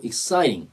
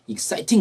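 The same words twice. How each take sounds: First: Exciting with the T as an R-like flap; linked, flapped T. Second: Exciting with a clearly released T; hard T. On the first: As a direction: say "exciting" as "ek-SAI-ring". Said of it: "이렇게 나올 때가 많고". (exciting을 연음해서 '익사이링'으로) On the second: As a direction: say "exciting" as "ek-SAI-ting", crisp T. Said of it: "exciting 그러지 않고". (exciting의 T를 '팅'으로 또렷하게) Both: Shown as a demonstration.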